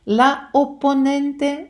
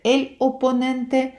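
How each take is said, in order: First: "la opponente" slow, "la" clearly marked; "la opponente" drawn out to show the feminine; article stressed. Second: "el opponente" slow, "el" clearly marked; "el opponente" drawn out to show the masculine; article stressed. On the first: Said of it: "ви кажете про жінку". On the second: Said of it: "ви маєте на увазі чоловіка". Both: Shown as a demonstration. Teacher contrasts feminine and masculine articles.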